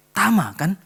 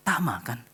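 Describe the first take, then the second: First: Louder, higher second call of Tama kan. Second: Said in the usual way. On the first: Retold or imitated. Mother calling her son's name again, louder and higher.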